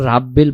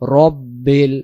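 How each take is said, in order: First: The first syllable sounds like 'ra'. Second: The first syllable sounds like 'ro'. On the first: The speaker calls it wrong. "রাব্বিল পড়বো না" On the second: The speaker calls it right. "আমরা উচ্চারণ করব রব্বিল"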